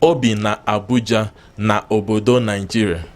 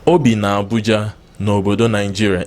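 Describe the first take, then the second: First: Na obodo is said in full. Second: Na obodo is shortened to n'obodo. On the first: The speaker calls it wrong. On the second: The speaker calls it right.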